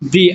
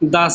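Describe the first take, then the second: First: The vowel sounds like a long 'ee'. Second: The vowel sounds like a short 'uh'. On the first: The next word begins with a vowel sound. "Vowel দিয়ে ... তাহলে হবে দি" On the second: The next word begins with a consonant sound. "Consonant, তাহলে হবে দা"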